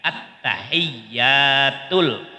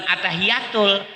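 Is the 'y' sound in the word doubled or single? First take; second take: doubled; single. First: The y sound is doubled with a jolt. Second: The y sound is short and single. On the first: The speaker calls it right. "iyanya ditasdid Pak ya, disentak gitu" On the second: The speaker calls it wrong. "bukan at-tahiyatul"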